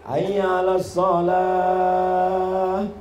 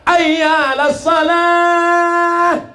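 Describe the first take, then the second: First: It is said softly and slowly. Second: It is said in a loud, ringing voice.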